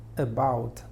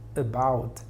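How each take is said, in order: First: The first vowel is a reduced schwa. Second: The first vowel is a reduced schwa.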